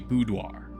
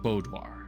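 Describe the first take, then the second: First: The first syllable is pronounced like 'boo'. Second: The first syllable is not pronounced like 'boo'. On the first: The speaker calls it right. "So it is boo" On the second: The speaker calls it wrong. "instead of"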